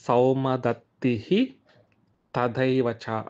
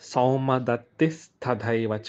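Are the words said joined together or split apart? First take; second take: split; joined. First: The words are said separately, ending in a visarga. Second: The words are run together with an s sound. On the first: "విడదీసి చదువుకోవచ్చు" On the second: "కలిపితే"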